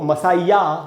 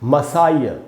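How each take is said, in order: First: The word ends with a clear 'ya' syllable. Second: The word ends with only a faint 'uh' sound. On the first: The speaker calls it wrong. "इसको मसाइया नहीं पढ़ना है" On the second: The speaker calls it right. "अ बोलेंगे अंत में"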